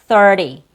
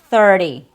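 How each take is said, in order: The two takes are said the same way.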